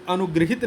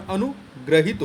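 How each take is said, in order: First: अनुगृहित with "gri" in the middle; wrong form. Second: Slow, split अनुग्रहित with "gra"; correct form. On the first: Teacher rejects the misspelling, saying अनुगृहित with "gri". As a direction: voice the error, अनुगृहित with i after gr. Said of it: "नहीं होता". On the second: Teacher corrects the spelling, slow अनुग्रहित with "gra". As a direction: draw out अनुग्रहित, an a after gr. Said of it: "होता है". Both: Shown as a demonstration.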